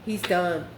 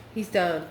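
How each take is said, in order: Both takes have the same delivery.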